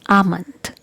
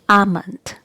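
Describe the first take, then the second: First: The L sound is silent in the word. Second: The L sound is silent in the word.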